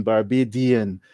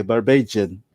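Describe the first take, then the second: First: Barbadian said with a clear D sound; spelled-out pronunciation. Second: Barbadian with the D turned into a J, bar-bay-jun; English-style pronunciation. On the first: Explaining the spelling to a friend, clear D in Barbadian. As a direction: say Barbadian as bar-bay-dee-an. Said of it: "pronounce D N". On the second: Showing a friend how the English say it, D becomes J. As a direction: soften the D in Barbadian to a J. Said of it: "it would sound like a J". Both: Shown as a demonstration.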